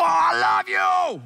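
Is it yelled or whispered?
yelled. It is yelled loudly.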